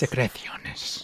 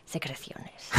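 First: Secreciones with a lisped Castilian θ, sekreTHIONes; Spanish pronunciation. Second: Secreciones with a soft Castilian th, half laughing; Spanish accent. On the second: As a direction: repeat Secreciones with th for the c, quietly. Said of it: "Put on my Spanish accent there". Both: Shown as a demonstration.

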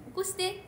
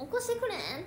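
First: Higher, curt 起こして; short command. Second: Kansai-style request. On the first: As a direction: bark the bare order at the phone. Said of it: "ぐらいやもん". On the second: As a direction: coax the phone in Kansai dialect. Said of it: "とか言わんから". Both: Retold or imitated.

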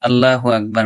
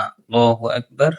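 First: আল্লাহু আকবার with a thin লা; wrong pronunciation. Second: আল্লাহু আকবার with a rounded ল; correct pronunciation. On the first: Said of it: "আল্লাহু আকবার না". (ভুল উচ্চারণ আল্লাহু) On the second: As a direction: say আল্লাহু with a full ল. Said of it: "ল হবে, লা না". (সঠিক উচ্চারণ আল্লাহু) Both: Shown as a demonstration.

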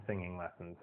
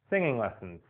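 First: Much softer, trailing off; fading out. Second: Said in the usual way. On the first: Shown as a demonstration. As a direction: let it fade away softly. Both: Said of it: "repeated fading".

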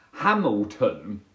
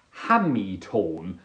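First: Said in the usual way. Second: "Hamilton" said slowly as Hammy-tone; odd pronunciation of Hamilton. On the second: Acted. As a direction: draw "Hamilton" out, ending in "tone". Tries out saying Hamilton.

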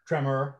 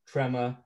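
First: Said in the usual way. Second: Put-on New York accent. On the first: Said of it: "tremor, well". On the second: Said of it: "that was a New York accent".

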